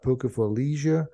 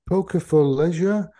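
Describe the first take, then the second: First: Leisure is said with an American pronunciation. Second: Leisure is said with a non-American pronunciation.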